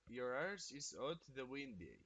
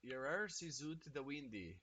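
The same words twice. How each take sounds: First: Another go at the Scottish accent, a touch more committed; Scottish accent retry. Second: A streamer's first try at a Scottish accent, soft-spoken; Scottish accent attempt. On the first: Streamer repeating the chat phrase to nail it, in a mock Scottish accent. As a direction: lean into the Scottish vowels on arse and windy. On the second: Streamer trying out a Scottish phrase from chat, in a tentative Scottish accent. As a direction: say it like a Glaswegian, rolling the words. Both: Shown as a demonstration. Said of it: "Did I nail that shit?".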